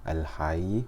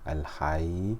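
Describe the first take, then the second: No difference in how they are said.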